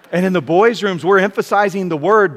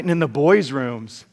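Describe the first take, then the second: First: Louder emphatic restatement. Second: Said in the usual way. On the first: Real, not acted. Preacher repeats the boys' rooms line, louder and emphatic. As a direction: punch it out louder to the congregation.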